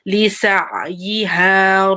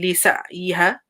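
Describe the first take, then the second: First: The ain sound is held and fully pronounced. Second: The ain sound is brushed over quickly. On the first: The speaker calls it right. "You have to give the ain sound properly" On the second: The speaker calls it wrong. "Don't say لسعيها. ... you can't just like brush on it"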